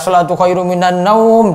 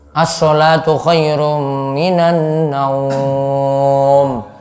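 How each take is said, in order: First: The final word is said at normal length. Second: The final word is drawn out long.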